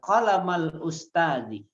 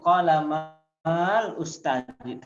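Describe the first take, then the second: First: The vowel before the article is short. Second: The vowel before the article is long. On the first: The speaker calls it right. "Hilang itu tanda panjangnya" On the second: The speaker calls it wrong.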